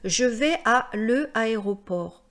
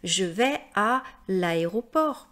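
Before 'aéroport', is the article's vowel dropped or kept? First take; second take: kept; dropped. First: The article's vowel is sounded before the next vowel. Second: The article's vowel is dropped before the next vowel. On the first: The speaker calls it wrong. "C'est pas du tout harmonieux, c'est pas joli" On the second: The speaker calls it right. "C'est beaucoup plus joli de dire"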